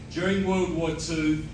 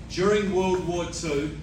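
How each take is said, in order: Both takes have the same delivery.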